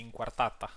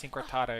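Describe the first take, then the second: First: Inquartata with Italian vowels, in-kwar-TA-ta; Latin pronunciation. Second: Incortada said the English way, cor like core; anglicized incortada, flat English vowels; English-style pronunciation. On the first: Shown as a demonstration. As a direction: inquartata said as in a Latin language, open a sounds. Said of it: "I should say inquartata". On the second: Real, not acted. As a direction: incortada pronounced as an English speaker would. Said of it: "I'm saying that with an English accent".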